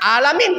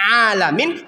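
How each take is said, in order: First: It starts with a plain glottal stop. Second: It starts with a deep throat 'ain sound. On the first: The speaker calls it wrong. "kita baca alamin" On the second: The speaker calls it right. "yang harusnya kita baca alamin"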